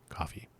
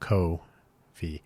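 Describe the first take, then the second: First: The first syllable sounds like the drink 'coffee'. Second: The first syllable has a long 'oh' vowel. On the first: It is probably the usual pronunciation. "even though it's probably pronounced coffee" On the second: It stresses that the name is spelled K-O. "I pronounce it Ko-fi to emphasize that it's K-O"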